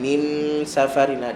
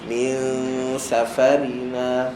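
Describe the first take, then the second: First: The n is pressed firmly before the s. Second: The n is nasalized with the tongue at s. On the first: The speaker calls it wrong. "kalau tekan min safarina, dia tak jadi hukum yang kita nak" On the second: The speaker calls it right. "sebut nun tu tetapi mulut kita pada makhraj huruf selepas dia"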